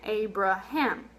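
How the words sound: Said with English vowels, each A sounding different. "in English ... we're really pronouncing three different sounds"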